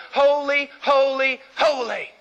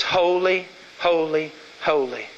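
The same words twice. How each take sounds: First: Ringing proclamation. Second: "Holy, holy, holy" dropping lower each time, ending deep; grave low repetition. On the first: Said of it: "Hebrew parallelism". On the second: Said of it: "It says". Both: Shown as a demonstration.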